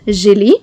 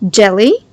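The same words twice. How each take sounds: First: The first sound is a soft 'zh' sound. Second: The first sound is a 'dj' sound. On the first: The speaker calls it wrong. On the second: The speaker calls it right.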